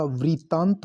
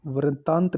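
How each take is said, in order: First: वृत्तांत said "vrit-taant"; correct pronunciation. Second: वृत्तांत said "varataant"; wrong pronunciation. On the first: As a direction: give वृत्तांत a clear "vri". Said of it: "वृत्तांत होता है ये". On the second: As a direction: say वृत्तांत with "vara". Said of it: "वृत्तांत नहीं होता". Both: Shown as a demonstration.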